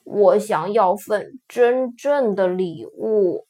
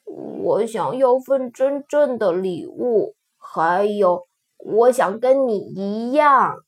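First: Pouty lips, slow and let down; pouting. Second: Sad. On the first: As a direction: pout out the words slowly. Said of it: "他嘟着嘴说". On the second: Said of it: "最后伤心地说". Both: A narrator's reading.

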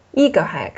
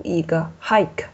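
First: "一个hack" with the stress thrown onto 一; wrong first-syllable stress. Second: "一个hike" slowed, with the weight on the I in "hike"; stress on final vowel. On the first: Teacher shows students the mistake, stress misplaced on 一. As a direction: hit 一 and let "hack" drop. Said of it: "重音你应该放在最后一个元音上". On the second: Teacher models the correct reading, final "hike" stressed. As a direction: lean on "hike", falling like a Mandarin fourth tone. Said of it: "重音是放在I上的". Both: Shown as a demonstration.

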